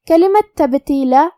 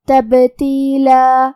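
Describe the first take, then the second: First: Said in the usual way. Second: تبتیلا said very slowly with the ba bounced in qalqala and the final alif stretched. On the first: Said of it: "با کو قلقلہ سے پڑھنا ہے". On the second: Shown as a demonstration. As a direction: chant تبتیلا, shaking the sakin ba and drawing out the end. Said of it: "ہمیں با کو قلقلہ سے پڑھنا ہے". (تبتیلا میں با پر قلقلہ اور آخر میں مد)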